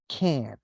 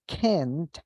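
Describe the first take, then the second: First: The t is dropped and the vowel lengthened. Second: The word ends with a clear t sound. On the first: "they will not pronounce the last sound. So they will make it longer" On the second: "Instead of saying can't"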